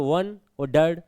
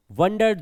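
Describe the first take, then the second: First: वन और डर्ड as two separate beats; broken into syllables. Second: Said in the usual way. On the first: Shown as a demonstration. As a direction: split the word apart, वन, then डर्ड. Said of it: "दो अक्षरों को अलग अलग तोड़ लो".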